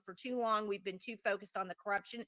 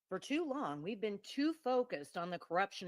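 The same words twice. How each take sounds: First: It is read in a natural everyday voice. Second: It is read in a put-on radio announcer voice.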